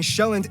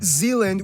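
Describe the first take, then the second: First: The name is said with Danish pronunciation. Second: The name is said with English pronunciation. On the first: The speaker calls it right. "I'm gonna pronounce the location names in their proper Danish context" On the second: The speaker calls it wrong.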